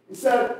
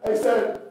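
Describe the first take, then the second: No difference in how they are said.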